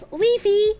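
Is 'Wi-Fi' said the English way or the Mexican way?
Mexican. It is said with the Mexican pronunciation.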